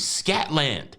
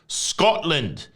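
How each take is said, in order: First: The first vowel sounds like the vowel in 'cat'. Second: The first vowel sounds like the vowel in 'cot'. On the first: The speaker calls it wrong. "I was saying Scatland. S C A T L A N D" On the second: The speaker calls it right. "the appropriate pronunciation is Scotland"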